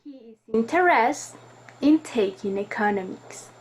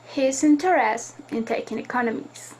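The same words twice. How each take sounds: First: Interested stressed, pause before in taking economics; with intonation. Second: Said in the usual way. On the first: Shown as a demonstration. Teacher showing students correct intonation, stress on interested. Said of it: "with any, uh, way to produce a correct intonation". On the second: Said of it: "read this sentence without any stress".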